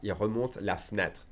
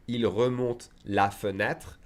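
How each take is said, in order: First: "fenêtre" said fnêtre, e dropped; fast, dropped e. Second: "fenêtre" with every syllable, slow; slowly. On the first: Teacher showing fast speech, dropped e. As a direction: run "la fenêtre" together as "la fnêtre". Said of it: "we would skip it when we speak fast". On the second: Teacher demonstrating the slow careful version. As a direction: say "il remonte la fenêtre" slowly, all the e sounds. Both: Shown as a demonstration.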